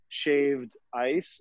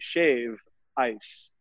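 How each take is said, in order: First: The final d of shaved is clearly pronounced. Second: The final d of shaved is dropped. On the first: This is how visitors say it. "hear me enunciating shaved. We don't say it that way here" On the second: This is how locals say it. "We say shave ice, not shaved. Drop the D"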